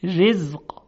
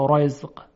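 First: Thin, delicate ر in «رزق»; light r before i in «رزق»; ترقیق. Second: Thick, dark r in «رزق», coloured toward "ro"; wrong heavy ر. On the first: («رزق» با رای نازک و ظریف) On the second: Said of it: "غلطه". («رزق» با رای درشت و غلط) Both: Shown as a demonstration.

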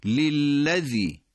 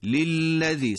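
First: للذی chanted very slowly; للذی with three lams drawn out; recited model. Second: للذی higher, crisper; للذی at a normal pace with the lam held; quicker repeat. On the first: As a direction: hold the doubled lam in للذی. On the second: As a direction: say للذی again, lam doubled. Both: Shown as a demonstration. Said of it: "سه تا لام پشت سر هم اومده".

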